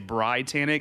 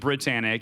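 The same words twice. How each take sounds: First: The first vowel is a long 'eye' sound. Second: The first vowel is a short 'ih' sound. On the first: The speaker calls it right. "the I is supposed to be like a hard I" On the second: The speaker calls it wrong. "everyone pronounces it Britannic"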